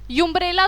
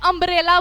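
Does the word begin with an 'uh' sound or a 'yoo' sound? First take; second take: yoo; uh. First: The word begins with a 'yoo' sound. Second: The word begins with an 'uh' sound. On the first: The speaker calls it wrong. "यूम्ब्रेला तो नहीं बोल रही ना" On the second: The speaker calls it right. "मैं अम्ब्रेला बोल रही हूँ, उसे अ से स्टार्ट हो रहा है"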